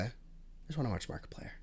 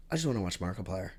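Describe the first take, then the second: First: Much softer, breathy whispered longing; wistful whisper of what she came for. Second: Said in the usual way. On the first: Real, not acted. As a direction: whisper it like a private plea. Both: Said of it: "repeated as whispered take".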